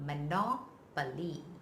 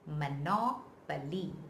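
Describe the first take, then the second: First: The stress is on the second syllable. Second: The stress is on the second syllable.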